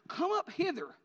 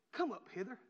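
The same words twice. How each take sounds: First: High, loud heavenly summons; ringing, raised call; great voice from heaven. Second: Said in the usual way. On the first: Acted. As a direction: boom it out like a voice from heaven. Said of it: "they heard a great voice from heaven". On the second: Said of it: "they heard a voice say".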